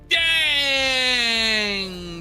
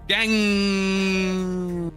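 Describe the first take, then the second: First: The vowel sound is stretched out long. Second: The final ng sound is stretched out long. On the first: The speaker calls it wrong. "I really read it wrong" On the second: The speaker calls it right. "This person wrote more G's"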